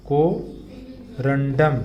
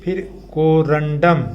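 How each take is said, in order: First: Very slow drawn-out. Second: Said in the usual way. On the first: Shown as a demonstration. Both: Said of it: "आप साथ साथ बोलेंगे".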